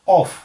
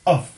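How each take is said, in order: First: The vowel is a rounded 'aw' like 'off'. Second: The vowel is a short unrounded 'uh' sound. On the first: The speaker calls it wrong. "हम इसे बोलते हैं ऑफ" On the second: The speaker calls it right. "इसकी actual जो pronunciation है वो होती है अ और वो"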